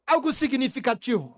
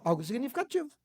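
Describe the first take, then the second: First: Said in the usual way. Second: Dropped down softer, letting it sink in; a hushed echo of the phrase; softer repeat. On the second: Shown as a demonstration. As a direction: say it again, much softer.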